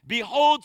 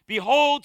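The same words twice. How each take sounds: First: Behold, punched out again as a full stop; a weighty, stopping Behold; hit behold hard. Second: Behold, punched loud and drawn out; hit behold hard. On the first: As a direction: make "Behold" a speed bump the church can't miss. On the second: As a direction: land "Behold" like a speed bump. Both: Shown as a demonstration. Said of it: "I hit those beholds hard every week".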